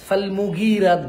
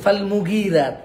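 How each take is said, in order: The two takes are said the same way.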